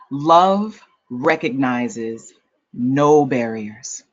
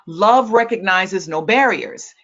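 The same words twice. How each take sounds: First: It is read at a slow, unhurried pace. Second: It is read at a normal, quicker pace.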